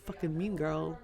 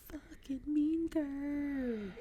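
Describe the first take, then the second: First: Said in the usual way. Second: Movie quote. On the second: Retold or imitated. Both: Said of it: "I love that movie".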